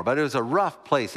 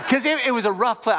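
First: Said in the usual way. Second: Laughing through the words, louder and higher. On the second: Real, not acted. Pastor laughing to congregation about the rough bar. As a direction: burst out laughing as you say it.

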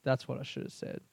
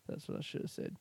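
First: Said in the usual way. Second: Whispered to himself in regret; repeating it to himself in a whisper. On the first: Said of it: "says the line twice". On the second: Real, not acted. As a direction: breathe it out, no voice, regretful. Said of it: "repeats it, drops to a whisper".

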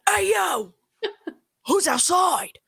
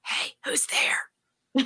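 First: Higher, calling out boldly; a pitched-up call into the dark; mock call out. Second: Slow, breathy hushed whisper; a slow, hushed whisper to an unseen intruder; mock whisper. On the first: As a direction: call out to whoever's out there. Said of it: "You either yell or you don't say anything at all". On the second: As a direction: whisper it like you're scared to be heard. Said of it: "Like, whispering".

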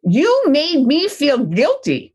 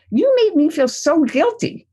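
First: Slow, hurt blaming tone; a parent's resentful reproach; guilty accusation. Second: Higher, blaming parent's complaint; mild mock reproach from a parent; guilty accusation. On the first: Retold or imitated. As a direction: accuse the child with wounded guilt. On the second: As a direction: sound hurt and put upon. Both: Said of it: "This is how parents often react".

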